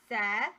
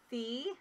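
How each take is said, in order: First: The vowel is a short E sound. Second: The vowel is a long E sound. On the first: The speaker calls it right. "this is actually going to be a short E" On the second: The speaker calls it wrong. "you might think it's C, huh? ... So not a long E"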